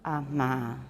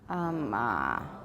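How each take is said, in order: First: The middle consonant is said with breathy voice. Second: The middle consonant is said with creaky voice. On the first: "superimpose breathy voice or murmur onto intervocalic consonants" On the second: "Add creaky voice or laryngalization to intervocalic consonants"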